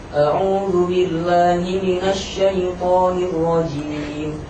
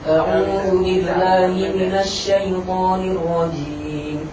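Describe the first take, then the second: First: The lips move while making the sh sound. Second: The sh sound is made without moving the lips. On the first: The speaker calls it wrong. "menggerakkan bibir. Salah" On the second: The speaker calls it right. "Yang benar yang pertama"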